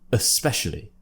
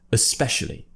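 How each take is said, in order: First: The first vowel is a weak schwa. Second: The first vowel is a weak schwa.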